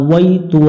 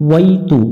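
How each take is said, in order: No difference in how they are said.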